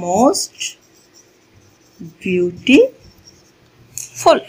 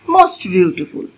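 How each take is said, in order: First: "most beautiful" very slow, with long pauses inside; slow dictation. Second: Said in the usual way. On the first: Shown as a demonstration. Teacher writing the example for learners, "most beautiful" in slow dictation. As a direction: dictate "most ... beau-ti ... ful" piece by piece. Repeats it slowly while writing it out.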